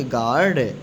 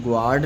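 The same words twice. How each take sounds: First: गार्ड said as 'gaard', no w; correct reading, silent u. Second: गार्ड said as 'gwaard'; wrong reading, u sounded. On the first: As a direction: go straight from g to long aa in गार्ड. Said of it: "क्या पढ़ेंगे?". (सही उच्चारण, गार्ड में यू साइलेंट) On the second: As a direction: put a w after the g in गार्ड. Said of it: "इसको गार्ड नहीं पढ़ेंगे". (गलत उच्चारण, गार्ड को 'ग्वार्ड' बोलकर) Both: Shown as a demonstration.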